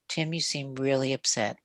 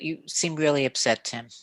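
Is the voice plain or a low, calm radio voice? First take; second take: radio voice; plain. First: It is said in a low, calm late-night radio voice. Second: It is said in a plain speaking voice.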